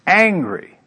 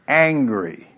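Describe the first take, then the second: First: Angry said higher and louder; emphatic repeat. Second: Said in the usual way. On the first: Shown as a demonstration.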